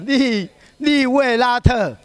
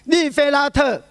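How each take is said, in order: First: The second syllable begins with a w sound. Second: The second syllable begins with an f sound. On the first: The speaker calls it right. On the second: The speaker calls it wrong.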